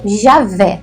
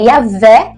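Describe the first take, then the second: First: The name begins with a J sound. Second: The name begins with a Y sound. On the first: A form that came in through Spanish. "de origem hispânica" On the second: A reading close to the Hebrew. "a forma mais pro hebraico mesmo"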